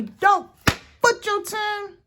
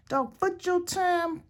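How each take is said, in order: First: High, loud mock grandma scolding; grandmother's voice. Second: High, slow put-on grandma voice; grandmother's voice. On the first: Quoting grandmother to viewers, high loud mock scold. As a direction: bark it like an old grandmother. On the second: Repeating grandmother's saying, high slow mock granny. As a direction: drag it out like granny lecturing. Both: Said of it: "That's what my grandmother would say".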